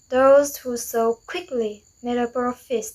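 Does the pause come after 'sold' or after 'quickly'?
after quickly. The pause comes after the word quickly. Those who sold quickly made a profit. "meaning a profit was made by those who so quickly"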